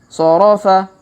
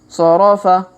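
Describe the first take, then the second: No difference in how they are said.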